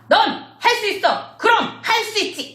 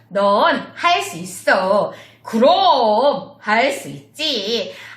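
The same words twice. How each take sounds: First: It is shouted loudly. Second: It is strong but pressed down, not shouted.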